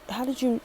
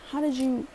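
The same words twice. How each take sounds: The two takes are said the same way.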